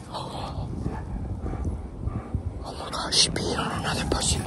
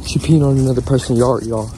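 First: Shocked whisper; hushed whisper. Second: Loud, low-pitched report; loud announcement. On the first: Owner telling viewers about the dog peeing, whispered. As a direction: whisper it so nobody nearby hears. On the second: Owner repeating the dog news to viewers, loud and low. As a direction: say it out loud to everyone. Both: Real, not acted.

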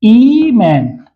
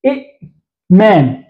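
First: إيمان with a long, smooth opening ee; changed form with yaa. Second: إئمان split after a short i' with glottal stop; original two-hamza form. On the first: Teacher answering what we will say, stretched pronunciation. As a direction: draw out the ee in إيمان, slowly into -maan. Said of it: "إذا سنقول ماذا؟". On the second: Teacher giving the example word before the change, segmented sounding-out. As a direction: stop on the hamza in إئمان, then slow -maan. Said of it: "إذا هنا مثلًا يعني كلمة". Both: Shown as a demonstration.

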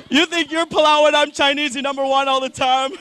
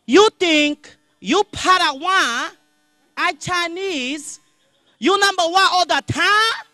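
First: Higher mock Chinese accent at normal speed; retelling the shop lady's line at normal speed, lighter mock accent. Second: High, slow, loud mock Chinese accent; replaying the shop lady's words in slow motion, mock Chinese accent. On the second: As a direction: replay her line slowly in a put-on Chinese accent. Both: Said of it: "realized what she said".

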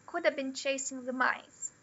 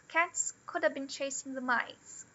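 First: "could have been" run together as "couldev been"; reduced have. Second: "Cats could have been chasing the mice" with "have" as a quick "ab"; weak form of have. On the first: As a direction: let "have" collapse into a schwa. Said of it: "O could ... ele vira o schwa". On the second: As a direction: glide through "have" as a schwa. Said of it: "Ele vira o schwa, na verdade". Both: Shown as a demonstration.

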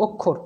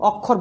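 First: অক্ষর with closed "o" first vowel; pronounced with O. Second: অক্ষর with open "aw" first vowel; rejected open vowel. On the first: Teacher giving the spoken form, অক্ষর with closed o. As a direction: say অক্ষর as "ok-khor". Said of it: "তাহলে আমি বলতাম". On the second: Teacher showing the form to avoid, অক্ষর with open aw. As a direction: say অক্ষর as "awk-khor". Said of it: "অক্ষর বলতাম না". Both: Shown as a demonstration.

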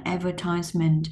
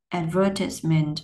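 First: American "advertisement", ad-ver-TISE-ment; American stress. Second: British "Advertisement", stressed ad-VER-tis-ment. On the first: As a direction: say "advertisement" with TISE as a long "eye" vowel. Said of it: "nó sẽ khác nhau cái nguyên âm". (advertisement kiểu Mỹ, nhấn vần ba) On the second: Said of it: "dấu nhấn cho nên nó sẽ khác". (Advertisement kiểu Anh, nhấn vần hai) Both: Shown as a demonstration.

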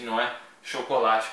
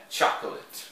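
First: Chocolate as in Portuguese, sho-ko-LA-chee; Portuguese pronunciation. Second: Chocolate as English CHOK-lit, two syllables; English pronunciation. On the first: Teacher showing the wrong Brazilian chocolate. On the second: Teacher showing the right English chocolate. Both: Shown as a demonstration. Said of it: "não é chocolate como nós dizemos".

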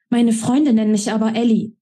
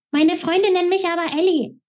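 First: A hint of a young woman, firm on Freunde; lightly voiced Ellie. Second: Much higher mocking echo of her words; mocking mimicry. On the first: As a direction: state it with stubborn pride. Ellie insists on her nickname. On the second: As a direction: ape her in a squeaky voice. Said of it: "äffte ich sie in schriller Tonlage nach".

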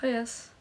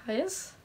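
First: Said in the usual way. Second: "Hi, S?" with a sharp rise on S; "S" lifted high, as if suspecting a trick; questioning greeting. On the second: Real, not acted. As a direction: say "Hi, S?" as a wary question, pitch climbing at the end.

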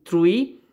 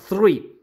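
First: "tree" said with a plain t, like "trui"; "tree" with a hard t, contrasted with three; pronunciation demo. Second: "three" with a lisped Spanish z, like "thrui"; pronunciation demo. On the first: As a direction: say "tree" with a crisp t and no th sound. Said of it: "se pronuncia así". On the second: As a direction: start "three" with a th sound like the Spanish z. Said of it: "como que le pronuncias la Z". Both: Shown as a demonstration.

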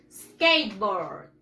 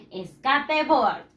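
First: SKATEBOARD as two slow English syllables, "skeit-bord", falling low; English pronunciation model. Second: SKATEBOARD read as Spanish "es-ka-te-board", every vowel sounded, slowly; Spanish spelling pronunciation. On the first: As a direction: model SKATEBOARD for repeating, drawn out and dropping in pitch. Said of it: "how do you pronounce it". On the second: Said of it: "Ahora en inglés". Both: Shown as a demonstration.

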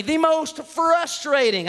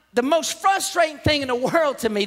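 First: "most frustrating" drawn out very slowly; emphatic. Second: Said in the usual way. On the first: Real, not acted. Preacher stressing his biggest annoyance, "most frustrating" drawn out. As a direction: stretch "most" and "frustrating" syllable by syllable.

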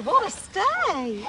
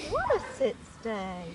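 First: Excited praise. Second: Said in the usual way. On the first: Real, not acted. Praising dog's sit stay.

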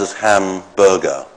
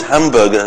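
First: "hamburger" pulled apart as ham, burger; split compound. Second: Said in the usual way. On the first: Shown as a demonstration. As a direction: say "hamburger" as two words with a small gap. Word shown split into two parts.

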